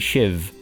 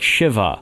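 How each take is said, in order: First: The word ends on the v, with no vowel. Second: The word ends with an audible final vowel. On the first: The speaker calls it right. "is actually Shiv" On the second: The speaker calls it wrong. "like Shiva"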